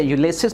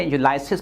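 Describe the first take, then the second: First: यूलिसिस said as yoo-li-sis, short i in the middle; correct Ulysses. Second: यूलाइसिस said as yoo-lai-sis with a long ai; wrong Ulysses. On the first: teacher छात्रों को सही उच्चारण बताते हुए, यूलिसिस साफ़ बोलते हैं. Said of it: "इससे यूलिसिस पढ़ते हैं". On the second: टीचर बच्चों की गलती की नकल करते हुए, यूलाइसिस बोलते हैं. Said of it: "कुछ बच्चे से यूलाइसिस पढ़ते हैं". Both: Shown as a demonstration.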